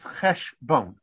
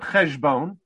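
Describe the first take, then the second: First: The middle consonant is an unvoiced sh sound. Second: The middle consonant is a voiced zh sound. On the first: The speaker calls it right. "it's cheshbon" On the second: The speaker calls it wrong. "it's not cheshbon"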